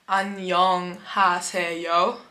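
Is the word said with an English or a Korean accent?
English. It is said with English-like sounds. The speaker calls it wrong. "you would say something like 안녕하세요, which sounds like you're speaking English"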